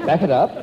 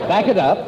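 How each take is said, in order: First: Said in the usual way. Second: Echoing it in his own refined voice; mimicking the phrase. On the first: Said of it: "repeated in his own manner". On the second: Shown as a demonstration. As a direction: repeat the phrase, amused. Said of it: "echoes the phrase, mimicking".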